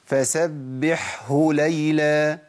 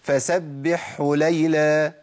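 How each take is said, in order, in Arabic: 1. الـ h بعد الـ ḥ يُنطق بوضوح. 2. الـ h تندمج في الـ ḥ اللي قبلها. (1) "انا جبتها كده مظبوطه" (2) "الهاء اضغمت"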